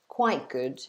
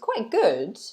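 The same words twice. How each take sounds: First: The pitch falls on the phrase. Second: The pitch rises on the phrase. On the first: Something about it was not great. "go down" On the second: It was better than expected. "if I go up with my intonation"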